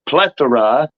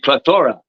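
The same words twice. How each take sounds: First: The stress is on the first syllable. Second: The stress is on the second syllable. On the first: The speaker calls it right. "if you make a mistake by thinking plethora" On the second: The speaker calls it wrong. "could be plethora"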